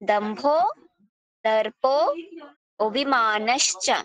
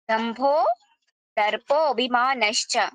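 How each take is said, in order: First: The phrase is split into separate syllables. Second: The phrase is recited smoothly as one flow. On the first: "অক্ষর ভেঙে উচ্চারণটা করাচ্ছি" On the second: "উচ্চারণ সহকারে ফার্স্টে আমি শোনাই।"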